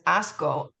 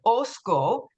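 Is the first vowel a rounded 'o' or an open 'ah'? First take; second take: open 'ah'; rounded 'o'. First: The first vowel is an open 'ah' sound. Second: The first vowel is a rounded 'o' sound. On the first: "said it with their English accent, it was Asco" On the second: "the Spanish speakers would say Osco"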